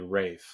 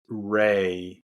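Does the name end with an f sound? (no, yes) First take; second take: yes; no. First: The name ends with an f sound. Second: The name ends in a plain vowel, no f. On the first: The speaker calls it right. "but it's actually Rafe" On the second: The speaker calls it wrong. "I've been saying his name wrong"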